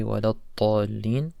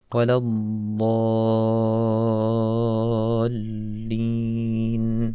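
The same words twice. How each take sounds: First: "waladdallin" short, with t replacing the heavy d; dad mispronounced. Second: "waladdallin" chanted, heavy d and very long "aa"; long dad vowel. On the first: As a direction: mispronounce "waladdallin" as "walat-taalin", unchanted. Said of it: "We're not gonna say". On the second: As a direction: hold the middle vowel of "waladdallin" on one steady note. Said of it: "keep the length". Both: Shown as a demonstration.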